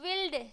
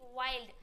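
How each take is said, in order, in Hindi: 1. स्वर 'ih' जैसा सुनाई देता है। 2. स्वर 'eye' जैसा सुनाई देता है। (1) "जो कि गलत है" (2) "आई से पढ़ते हैं"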